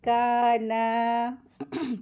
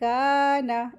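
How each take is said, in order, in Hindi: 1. आख़िरी स्वर खींचकर लंबा है। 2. आख़िरी स्वर छोटा और जल्दी वाला है। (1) "मिस्टेक करते हैं काना, तो वो गलत होता है" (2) "सही लफ्ज़ क्या है? काना। इस तरीके से पढ़ेंगे"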